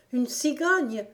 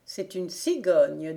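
First: Higher-pitched echoing question; surprised exclamation. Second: Said in the usual way. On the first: A narrator's reading. Gon echoes the servant's news of a stork, surprised exclamation. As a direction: cry it back as an astonished little girl. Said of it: "s'écria Gon".

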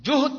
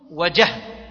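First: جهد said "juhd", with u after the jim; damma on the jim. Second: وجهد said "wa-jahd", with a after the jim; fatha on the jim. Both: Shown as a demonstration. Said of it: "بضم الجيم وفتحها".

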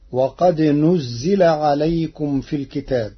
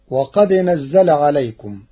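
First: نزل said nuzzila, with a ḍamma on the nūn and a kasra on the zāy; Warsh reading. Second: نزل said nazzala, with a fatha on the nūn; plain Hafs reading of نزل. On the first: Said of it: "بضم النون وكسر الزاي". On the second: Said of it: "قرأ ورش كلمة نزل". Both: Shown as a demonstration.

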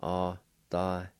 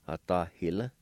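First: Autahila broken into long, separate syllables. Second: Said in the usual way. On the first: Shown as a demonstration. Teacher repeats number five for learners, syllable by syllable. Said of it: "a faint H sound right for the Y". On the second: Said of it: "I'll pronounce these words".

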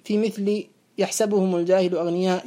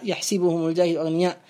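First: يحسبهم said yahsabuhum with open a, read low and measured; reading with fath. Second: يحسبهم said yahsibuhum with i vowel, lower recital tone; reading with kasr. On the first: Teacher reciting the verse for students with yahsabuhum. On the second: Teacher giving students the second reading, with kasr. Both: Shown as a demonstration. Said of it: "وكلاهما مقروء به".

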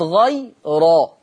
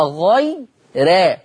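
First: غي را with a full, backed "raw"; heavy ra. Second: غي را with a thin, fronted "rae"; light ra. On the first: Teacher shows what it is not, heavy "ro" in غي را. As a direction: thicken the ra of غي را toward "ro". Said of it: "وليست غي را". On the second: Teacher shows Warsh's tarqiq, thin "rae" in غي را. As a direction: keep the ra of غي را light, toward "re". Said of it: "يبقى غي را وليست غي را". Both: Shown as a demonstration.

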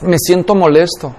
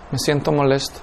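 First: Calm honest answer. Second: Quieter repeat. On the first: (respuesta calmada y sincera) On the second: (repetición suave, casi para sí mismo) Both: Acted. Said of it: "pregúntame otra vez".

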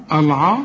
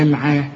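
First: العا with a dark, backed vowel; wrongly heavy ayn. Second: العا with a thin, fronted vowel, lower pitch; light ayn. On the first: Teacher asking which is correct, heavy العا. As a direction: thicken the ع in العا. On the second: Teacher offering the correct option, light العا. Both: Shown as a demonstration. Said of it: "رقق كل عين في القرآن".

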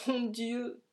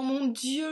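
First: Higher, crying out to God; anguished cry. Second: Higher and louder, voice straining; rising anguished cry. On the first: Vanier alone, crying out to God in anguish. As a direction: cry out the first plea. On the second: Vanier alone, begging God, louder and more desperate. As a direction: push the second cry harder. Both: A narrator's reading. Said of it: "Vanier s'écria".

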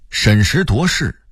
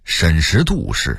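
First: Said in the usual way. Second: 审时度势 with 度 as dù; Beijing-style 审时度势 using falling dù; Beijing dialect reading. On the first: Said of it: "北京话念审时度势". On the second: Shown as a demonstration. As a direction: say 度 in 审时度势 as dù, not duó. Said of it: "北京话念".

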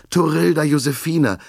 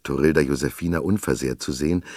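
First: Name called out much higher and louder, anxious; worried call. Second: Said in the usual way. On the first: A narrator's reading. Father calls to his found girl, anxious and loud. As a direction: cry out Torilda Josefina with worry. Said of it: "rief er besorgt". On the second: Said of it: "so erleichtert".

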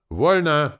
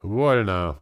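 First: High, loud sergeant's bark; sharp military shout. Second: Said in the usual way. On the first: A narrator's reading. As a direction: bellow the command to the men. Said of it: "рявкнул Валера". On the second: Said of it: "проговорил я".

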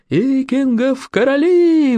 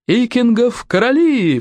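First: High, long-drawn battle cheer; roaring cheer. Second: High, drawn-out acclamation; rallying cry. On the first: Crowd of young friends echoes the rallying cry, high drawn-out roar. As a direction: roar it slowly, like a whole young cohort. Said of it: "взревела целая когорта юных остолопов". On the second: Young warrior acclaims his new king, high drawn-out cry. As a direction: cry it out slowly, as a rallying call. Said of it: "вскричал бандюк". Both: A narrator's reading.

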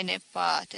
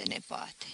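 First: Said in the usual way. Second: Hushed unvoiced whisper of nepoate. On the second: A narrator's reading. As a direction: breathe nepoate out with no voice. Dying uncle's lament.

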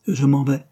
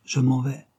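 First: Short, louder, clipped farewell; curt voice. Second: Said in the usual way. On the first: A narrator's reading. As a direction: cut it off briskly, she wants out. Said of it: "elle répéta d'une voix brève". (Christine, blessée, répète sèchement et plus fort) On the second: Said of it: "la voix changée".

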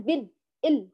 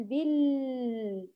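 First: بال with the l chopped dead; cut-off lam. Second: Slow بال, the l left running long; over-lengthened lam. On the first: Teacher shows what she avoided, lam cut short. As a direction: stop the l of بال and إل abruptly. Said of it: "قطعته كله". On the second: Teacher shows what she avoided, lam sound running on. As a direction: hold the l of بال right out, "billll". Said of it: "أطلته وأجريت الصوت كله". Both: Shown as a demonstration.

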